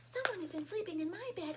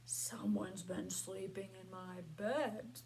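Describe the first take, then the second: First: It is squeaked in a small high voice. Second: It is bellowed in a deep bear voice.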